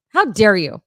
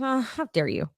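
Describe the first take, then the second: First: Loud, hammed-up indignation; mock outrage. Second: Said in the usual way. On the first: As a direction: play it as fake offended diva. Mock outrage, louder repeat.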